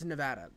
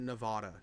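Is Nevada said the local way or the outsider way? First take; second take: local; outsider. First: The state name is said the local way. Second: The state name is said the outsider way. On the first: The speaker calls it right. "It's Nevada, and it's always been that" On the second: The speaker calls it wrong. "the rest of the country pronounces it wrong. It's they pronounce it Nevada"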